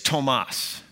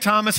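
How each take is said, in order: First: The name has a German pronunciation. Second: The name has an American pronunciation. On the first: The speaker calls it right. "he would say, it's Tomas. So we learned quickly it was Tomas" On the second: The speaker calls it wrong. "we would say, hey"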